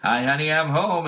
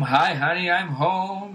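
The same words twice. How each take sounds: First: Higher cheery sitcom dad; a hint of a hammy TV husband. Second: Higher, loud cheery sitcom dad; hammed-up sitcom husband greeting. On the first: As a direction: redo the entrance for the laugh track. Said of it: "comes back in". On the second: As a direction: call it out like a fifties TV husband. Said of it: "Dude comes home".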